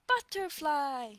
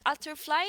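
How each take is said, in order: First: The word begins with a clear b sound. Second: The word begins without any b sound. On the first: The speaker calls it right. "it's a butterfly" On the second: The speaker calls it wrong. "that's not an butterfly"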